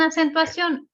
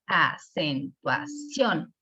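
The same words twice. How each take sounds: First: Said in the usual way. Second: Acentuación very slow, syllable by syllable, rising on CIÓN; stress on last syllable. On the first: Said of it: "Si se fijan". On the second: Shown as a demonstration. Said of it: "está en la última". (acentuación silabeada, con énfasis final en CIÓN)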